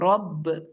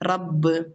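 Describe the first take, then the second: First: The r sound is heavy and deep. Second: The r sound is light and thin. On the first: The speaker calls it right. "നമ്മൾ എപ്പോഴും ഫത്ഹ ഉള്ള സൗണ്ട് നന്നായിട്ട് ഹെവി ആക്കണം" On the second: The speaker calls it wrong. "മിസ്റ്റേക്ക് എങ്ങനെയെന്ന്"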